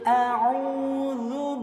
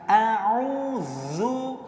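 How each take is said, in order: First: The dh sound is pressed with light force. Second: The dh sound is pressed with heavy force. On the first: The speaker calls it right. "Saya ulang yang benar" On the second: The speaker calls it wrong. "penekanannya terlalu berlebihan"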